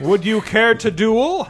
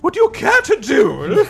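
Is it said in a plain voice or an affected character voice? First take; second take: plain; affected. First: It is said without the intended character voice. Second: It is said in an affected character voice.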